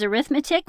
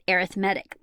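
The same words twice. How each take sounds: First: It is said in its noun pronunciation. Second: It is said in its adjective pronunciation. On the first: The word names the branch of mathematics. "whenever you use it as a noun" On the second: The word describes something as relating to arithmetic. "if you use it as an adjective, you pronounce it"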